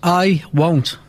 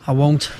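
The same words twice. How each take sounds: First: It is said with confidence. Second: It is said without confidence.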